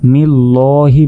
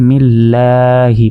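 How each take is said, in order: First: The l is said thick and heavy. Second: The l is said thin and light. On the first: The speaker calls it wrong. "এখানে কিন্তু আমরা মিল্লাহি বলবো না" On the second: The speaker calls it right. "এটা হচ্ছে বারিক, এখানে আমরা মিল্লাহি বলবো"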